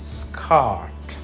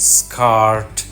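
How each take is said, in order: First: The r sound is dropped. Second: The r sound is pronounced. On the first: This is the British pronunciation. "ব্রিটিশরা আর এর উচ্চারণ করে না" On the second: This is the American pronunciation. "আমেরিকানরা হার্ড, স্কার্ট, জার্ম এইভাবে বলে"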